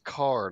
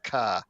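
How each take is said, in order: First: The final R sound is clearly pronounced. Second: The final R sound is dropped entirely. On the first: The speaker calls it right. "please put a R on your words? It's car" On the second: The speaker calls it wrong. "not Kai"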